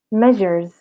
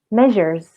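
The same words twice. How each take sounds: No difference in how they are said.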